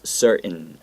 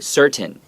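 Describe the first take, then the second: First: The middle T is swallowed, not pronounced. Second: The middle T is clearly pronounced. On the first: "we will often like swallow that T so that there's no T sound" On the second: "You can say certain or uncertain, right? This is acceptable"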